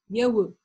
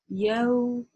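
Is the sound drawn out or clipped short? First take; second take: clipped short; drawn out. First: The sound is said very quickly and short. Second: The sound is given time and drawn out. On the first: The speaker calls it wrong. "не нужно говорить «яу», «яу». Это очень быстро" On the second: The speaker calls it right. "и произносим, даем время"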